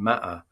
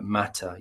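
First: The middle t is a glottal stop. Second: The middle t is clearly pronounced. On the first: "change that to a glottal stop" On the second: "pronounces T's quite carefully"

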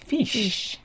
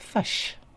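First: The vowel is a clear front ee-like sound. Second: The vowel is a central, uh-like sound. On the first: "But in Australia, sounds fish" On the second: "in New Zealand sounds like fush"

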